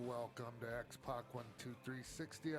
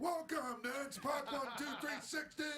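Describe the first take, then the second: First: It is said calmly with low energy. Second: It is said loudly with high energy.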